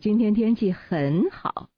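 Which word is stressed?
很好. The word 很好 is stressed. The focus is on how good it is. "那重点就在这个很好了"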